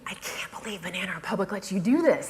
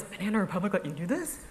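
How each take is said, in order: First: Mock gushing amazement, lifting at the end. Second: Softer disbelieving question, rising at the end; incredulous. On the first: Blogger imitating readers thrilled by her sponsored post, gushing. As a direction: imitate a delighted, marvelling reader. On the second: Retold or imitated. Blogger imitating readers who doubt the sponsor allowed it, incredulous. Quoted reaction turns to doubt.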